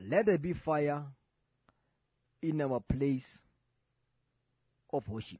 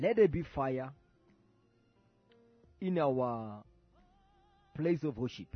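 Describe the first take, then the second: The two takes are said the same way.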